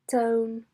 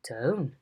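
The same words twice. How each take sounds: First: The pitch stays flat throughout. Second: The pitch rises and then falls. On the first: "a level tone" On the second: "a rise fall"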